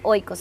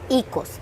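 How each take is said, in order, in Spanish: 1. La primera vocal es el diptongo 'oy'. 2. La primera vocal es una 'ee' simple. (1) "en realidad no se dice oikos" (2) "se dice icos, si lo pronuncias en griego"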